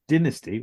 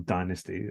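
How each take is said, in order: First: It is said with a non-American pronunciation. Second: It is said with an American pronunciation.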